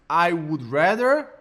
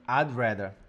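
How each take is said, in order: First: The word 'would' is said in full. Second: 'Would' shrinks to a soft, almost silent D.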